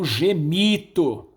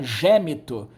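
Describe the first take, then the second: First: The stress is on the second-to-last syllable. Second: The stress is on the third-to-last syllable. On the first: This is the later form of the word. "Paroxítona" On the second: This is the older form of the word. "Era proparoxítona"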